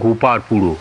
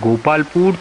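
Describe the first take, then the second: First: It ends with an added final vowel. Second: It ends in a consonant, plain Bengali style.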